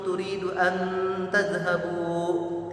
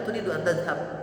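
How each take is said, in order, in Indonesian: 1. Bunyi n dipanjangkan dengan dengung sengau. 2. Bunyi n diucapkan biasa tanpa dengung sengau. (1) "Tidak ada orang berbicara misalnya" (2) "Biasa orang bicara"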